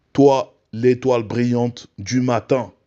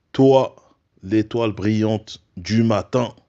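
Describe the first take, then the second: Both takes have the same delivery.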